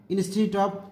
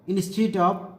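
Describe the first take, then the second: No difference in how they are said.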